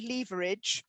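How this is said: It is said with a British pronunciation.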